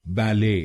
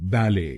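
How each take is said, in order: First: बैले as ba-LAY, second syllable stressed; American बैले, sustained "lay"; American pronunciation. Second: बैले as BAL-ay, first syllable stressed; British बैले, falling on "ay"; British pronunciation. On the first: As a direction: stress the end of बैले, silent T. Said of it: "American English में". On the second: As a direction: stress the start of बैले, silent T. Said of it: "British English में". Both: Shown as a demonstration.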